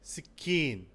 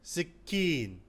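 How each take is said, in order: Both takes have the same delivery.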